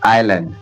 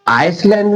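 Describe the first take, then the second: First: The s sound is silent in the middle. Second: The s sound is pronounced in the middle. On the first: The speaker calls it right. "एस का उच्चारण silent होगा" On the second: The speaker calls it wrong. "अब इसमें आइसलैंड नहीं पढ़ेंगे"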